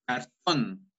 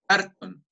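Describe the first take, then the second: First: "cartón" with a slow, stretched final TÓN; stress on last syllable. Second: "cartón" wrongly stressed on CAR; stress on first syllable. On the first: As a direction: lean long on the end of "cartón". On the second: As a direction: punch the front of "cartón", high, as CÁRton. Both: Shown as a demonstration. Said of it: "no es cartón".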